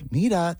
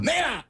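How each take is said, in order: First: It is said calmly and gently. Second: It is said loudly, like a yell. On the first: "They don't say, like" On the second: "They go"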